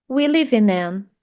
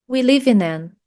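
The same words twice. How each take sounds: The two takes are said the same way.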